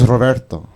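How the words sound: The name is said with Spanish-style sounds. This is how the name should sound. The speaker calls it right. "Very sexy name"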